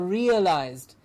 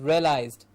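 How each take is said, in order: First: The first part sounds like the word 'real'. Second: The first part does not sound like 'real'. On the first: The speaker calls it right. "real. It's something real, so realized" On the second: The speaker calls it wrong. "we hear the mis- this word mispronounced as realized"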